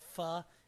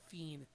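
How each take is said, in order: First: It is said with a French pronunciation. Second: It is said with a Spanish pronunciation. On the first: "Finn is pronounced in French" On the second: "in Portuguese and in Spanish as fin"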